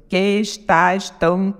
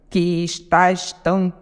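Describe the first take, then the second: Both takes have the same delivery.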